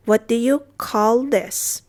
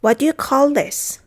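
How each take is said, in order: First: Slow, separated words; measured language-teacher demonstration; slow model repeat. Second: Said in the usual way. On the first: Shown as a demonstration. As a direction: say it word by word for learners. Teacher repeats phrase slowly.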